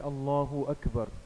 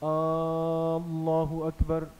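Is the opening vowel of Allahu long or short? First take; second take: short; long. First: The opening vowel of Allahu is short. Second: The opening vowel of Allahu is drawn out long. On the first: The speaker calls it right. "ये तकबीर तहरीमा है।" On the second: The speaker calls it wrong. "शुरू के अलिफ को इतना खींच कर पढ़ना"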